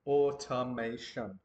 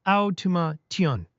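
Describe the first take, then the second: First: Automation said slowly, each syllable separate; careful slow Automation; learner's slow, syllabled Automation. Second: Automation said slowly, syllable by syllable; slow, careful Automation; broken into syllables. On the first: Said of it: "Try it slowly, focusing on each syllable". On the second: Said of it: "Let's break it down by syllable". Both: Shown as a demonstration.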